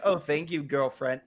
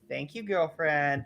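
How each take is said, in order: First: It sounds flat, without real feeling. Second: It sounds sincere and enthusiastic.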